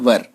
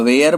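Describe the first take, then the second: First: It sounds like 'wur' with a short vowel. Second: It sounds like 'wair' with an 'ai' vowel. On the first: The speaker calls it right. "वर वधु वाला जो वर बोलते हैं ना, वही वर" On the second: The speaker calls it wrong. "कुछ लोग इसको वाज या वेयर बोलते हैं, वो गलत उच्चारण है"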